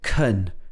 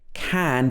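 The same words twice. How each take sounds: First: The vowel is a reduced schwa. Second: The vowel is a full vowel. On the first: "changes to can" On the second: "the can changes to"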